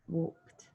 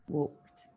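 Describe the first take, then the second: Both takes have the same delivery.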